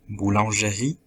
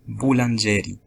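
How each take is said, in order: First: The stress is on the final syllable. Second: The stress is on the second-to-last syllable. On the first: The speaker calls it right. "avec l'accent dans la dernière syllabe" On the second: The speaker calls it wrong. "avec l'accent dans l'avant-dernière syllabe"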